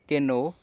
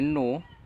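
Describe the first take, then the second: First: The word starts with a K sound. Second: The word starts with an N sound. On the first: The speaker calls it wrong. "तो वो कैनो पढ़ते हैं, लेकिन ये बिल्कुल गलत है।" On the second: The speaker calls it right. "तो हम इसे सिर्फ नो पढ़ रहे हैं"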